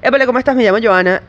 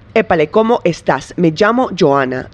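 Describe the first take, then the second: First: The final s sounds are dropped. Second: The final s sounds are clearly pronounced. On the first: It reveals where the speaker is from. "I would say something like" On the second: It sounds neutral, not tied to one place. "I sound like a freaking computer"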